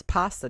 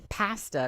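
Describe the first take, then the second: First: "pasta" with open AH; "pasta" with the A of father; corrected pronunciation. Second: "Pasta" as high PASS-tuh; mock "Pasta" with a short A; "Pasta" with the A of cat, raised pitch; wrong pronunciation. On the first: Shown as a demonstration. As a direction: say "pasta" as PAH-stuh. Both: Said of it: "It's pasta".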